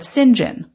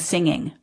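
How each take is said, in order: First: The word is pronounced in a non-native way. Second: The word is pronounced in a native way. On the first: This is how a non-native speaker said it. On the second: This is how the word was meant.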